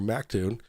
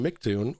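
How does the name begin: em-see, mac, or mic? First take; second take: mac; mic. First: The name begins with the syllable mac. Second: The name begins with the syllable mic. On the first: "If they call him Mictune or Mactune" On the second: "If they call him Mictune or Mactune"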